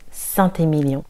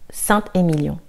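First: A T sound links Saint to Émilion. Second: No T sound links Saint to Émilion. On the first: The speaker calls it wrong. "parfois, on peut quand même entendre Saint-Émilion" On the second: The speaker calls it right. "la prononciation correcte, c'est Saint-Émilion"

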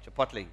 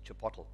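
First: It is pronounced the American way. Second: It is pronounced the South African way. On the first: The speaker calls it right. "That's American" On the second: The speaker calls it wrong. "the way South Africans pronounce it"

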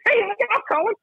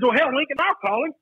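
First: It is said in a high-pitched voice. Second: It is said in a normal voice.

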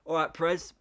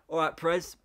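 First: It is said in a Scottish accent. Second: The same.

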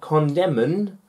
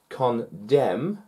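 First: The word ends with an added N sound. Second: The word ends in an M sound, no N. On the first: The speaker calls it wrong. "not condemn" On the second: The speaker calls it right. "So if the N"

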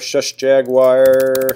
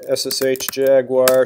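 First: The term is said as one word, shush. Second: The term is spelled out letter by letter. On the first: "I'm going to call it shush" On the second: "You mean SSH?"

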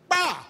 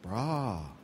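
First: It sounds loud and frustrated. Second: It sounds worried and caring.

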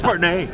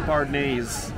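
First: The name ends without an added s sound. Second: The name ends with an added s sound. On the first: The speaker calls it right. "It's Bardenay" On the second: The speaker calls it wrong. "don't say Bardenay's"

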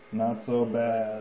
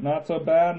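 First: The voice sounds electronically filtered, like a stormtrooper. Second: The voice sounds natural and unprocessed.

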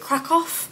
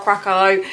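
First: The name is said with a Polish pronunciation. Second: The name is said with an English pronunciation. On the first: "if you're Polish, it's, is it Krakow?" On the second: "If you're English, you either say Krakow, Krakow"

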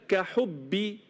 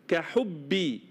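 No difference in how they are said.

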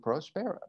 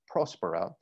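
First: The stress falls on a later syllable. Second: The stress falls on the first syllable. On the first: The speaker calls it wrong. "I might have mispronounced it there" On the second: The speaker calls it right. "The accent is at the first syllable"

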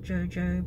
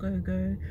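First: Each syllable starts with a j sound. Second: Each syllable starts with a hard g sound. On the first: "not jojo" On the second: "not go-go"

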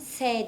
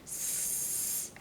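First: The consonant is followed by an e vowel. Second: A bare hissing consonant with no vowel. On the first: This is the name of the letter when reading. "okurken s diyoruz. Yanına bir e getiriyoruz" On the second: This is the sound the letter stands for. "sesini üretirken daha doğrusu biz s yapıyoruz"

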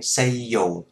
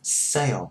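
First: The vowel is split into two separate syllables. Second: The two vowel parts glide together smoothly. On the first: The speaker calls it wrong. "hay say dồ" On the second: The speaker calls it right. "để cho nó gần với nhau, cho nó dính với nhau đó"

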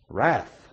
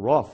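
First: The word is said in a non-Australian accent. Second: The word is said in an Australian accent.

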